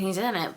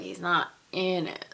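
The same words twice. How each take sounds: First: Said in the usual way. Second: Weighty, lengthened "in"; stress on IN. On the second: Real, not acted. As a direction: hit the word "in" with emphasis. Contrasts two senses of in.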